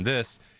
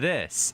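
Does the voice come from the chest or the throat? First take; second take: chest; throat. First: The voice resonates low in the chest. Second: The voice is pushed through the throat. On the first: "you speak from your diaphragm like I do, uh, which is center chest" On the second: "Tighten your diaphragm a bit and push through your throat instead"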